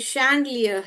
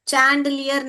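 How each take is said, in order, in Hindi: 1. यह शब्द sh की आवाज़ से शुरू होता है। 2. यह शब्द ch की आवाज़ से शुरू होता है। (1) "ये शैंडलियर है" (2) "चैंडलियर नहीं पढ़ने का"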